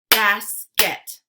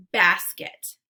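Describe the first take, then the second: First: Basket as loud "bas... ket"; split into syllables. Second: Said in the usual way. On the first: Shown as a demonstration. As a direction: punch out both halves of Basket separately. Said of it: "give you two parts to a word". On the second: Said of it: "swipe to say the whole word".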